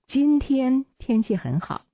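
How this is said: The word 今天 is stressed. The focus is on which day it is. "这是重点在今天"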